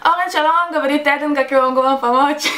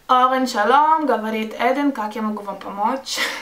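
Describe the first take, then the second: First: The greeting is said in a lively, energetic way. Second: The greeting is said in a flat, plain way. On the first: This is how the greeting was actually said. "а так: ... Потому что у меня есть гвоздики в моей попочке" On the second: This is not how the greeting was actually said. "конечно, не так говорила"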